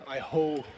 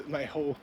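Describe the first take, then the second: No difference in how they are said.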